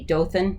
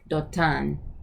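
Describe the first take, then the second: First: It is said with an English 'th' sound. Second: It is said with a Hebrew 't' sound.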